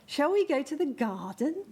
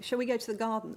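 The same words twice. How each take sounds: First: It is said with a strongly exaggerated rhythm. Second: It is said with ordinary, unexaggerated rhythm. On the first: "we'd really, again, be emphasizing this rhythm pattern" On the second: "we wouldn't just say to the baby"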